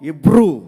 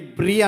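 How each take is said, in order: First: It begins with 'i' and ends in 'oo'. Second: It begins with 'e' and ends in 'ee'. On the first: This is the English pronunciation of the name. "English ప్రొనౌన్సియేషన్లో ఇబ్రూ అంటారు" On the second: This is the Telugu form of the name. "తెలుగులో ఎబ్రీ అంటారు"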